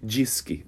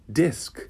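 First: The d sounds like a j. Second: The d is a plain hard d. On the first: The speaker calls it wrong. "você não pode dizer disque" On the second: The speaker calls it right. "O certo é disc"

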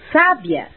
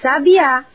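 First: The stress is on the first syllable. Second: The stress is on the third syllable. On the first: It means intelligent. "com acento no A" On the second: It is the name of a bird. "com acento na última sílaba"

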